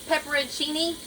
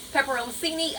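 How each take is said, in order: First: Pepperoncini tried with a "cheeny" ending, pitched up; careful word attempt. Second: Pepperoncini fumbled as "pepper-ohm-seeny"; second try at pepperoncini, "ohm-seeny" in place of "in-cheeny"; messed-up pronunciation. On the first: Home cook trying a hard word, Pepperoncini said with "-cheeny". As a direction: say Pepperoncini higher, with "chee" in it, ending on a rise. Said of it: "such a hard word for me to say". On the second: Home cook blaming her southern accent, pepperoncini garbled as "pepper-ohm-seeny". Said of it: "My southern accent messes it up".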